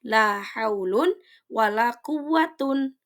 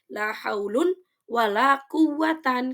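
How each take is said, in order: First: The last word ends in -un. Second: The last word ends in -an. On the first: The second la works like laisa. "Yang kedua bisa dibaca ropa" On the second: No rule supports this reading. "tidak boleh dibaca nasab"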